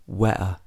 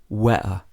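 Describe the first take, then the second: Both takes have the same delivery.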